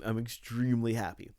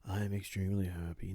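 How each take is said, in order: First: It is said in a cheerful tone. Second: It is said in a melancholy tone.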